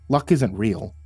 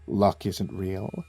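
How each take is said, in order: First: It is said in a normal voice. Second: It is said in a deep guy voice.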